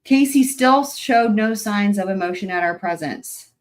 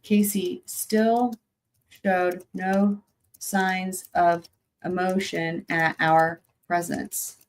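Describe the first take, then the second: First: Reading the quote pointedly. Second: Each word slow and weighted, "Casey still showed no signs"; slow deliberate emphasis. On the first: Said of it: "I'm gonna quote it verbatim". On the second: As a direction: drag out "still" and "no". Repeats quote slowly for emphasis. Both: Shown as a demonstration.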